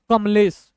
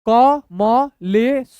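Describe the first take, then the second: First: Said in the usual way. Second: Very slow, every letter separate; syllable by syllable. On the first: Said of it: "दोनों मिलाएंगे". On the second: Shown as a demonstration. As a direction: sound it out letter by letter. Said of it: "तोड़ तोड़ के पढ़िए".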